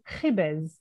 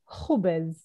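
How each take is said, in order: First: It is said with the Syrian-Lebanese vowel. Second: It is said with the Palestinian Arabic vowel.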